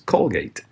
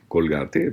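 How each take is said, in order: First: The name is read with English sounds. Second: The name is read with Spanish sounds. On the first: This is the original brand name. The speaker calls it right. "es Colgate" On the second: This is the localized form most countries use. The speaker calls it wrong. "no es el nombre correcto de la pasta"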